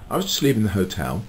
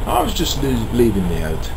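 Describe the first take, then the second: First: Said in the usual way. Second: Slipping into a London accent; London accent creeping in, dropped h on "hot-". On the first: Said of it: "Look, I'm slipping into the". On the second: Real, not acted. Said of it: "I'm slipping into the, um, London accent".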